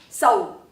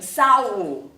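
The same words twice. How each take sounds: First: The vowels glide together quickly. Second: The vowels are drawn out slowly. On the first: The speaker calls it right. "很快的 sau" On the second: The speaker calls it wrong. "不会念成 sau"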